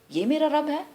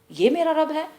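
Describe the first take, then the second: No difference in how they are said.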